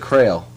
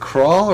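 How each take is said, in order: First: The name is said with an 'ay' vowel. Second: The name is said with an 'aw' vowel. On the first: The speaker calls it wrong. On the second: The speaker calls it right.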